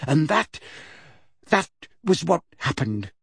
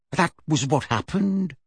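First: Trailing off weakly; a limp, unsure ending; lamely. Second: Said in the usual way. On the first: Acted. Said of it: "somewhat lamely". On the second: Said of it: "Missus Figg repeated".

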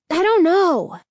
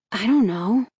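First: High, angry cut-in; angry interruption. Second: Said in the usual way. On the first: A narrator's reading. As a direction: break in sharply, voice raised. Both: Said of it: "Danny interrupted angrily".

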